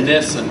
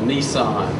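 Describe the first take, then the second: First: The last syllable sounds like 'sen'. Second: The last syllable sounds like 'san'. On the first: The speaker calls it right. "the correct pronunciation and name of the procedure" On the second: The speaker calls it wrong. "People down here call it a Nissan"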